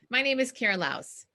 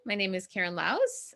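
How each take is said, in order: First: The voice falls at the end of the name. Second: The voice rises at the end of the name. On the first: The speaker sounds confident and the statement is complete. The speaker calls it right. "say your name with a period" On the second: The speaker sounds unsure and the sentence runs on. The speaker calls it wrong. "do that upspeak when they say their name"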